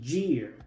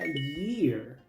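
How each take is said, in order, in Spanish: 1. La palabra empieza con un sonido j. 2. La palabra empieza con un sonido y. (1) "pero la Y en inglés no se pronuncia así" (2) "se pronuncia como una I"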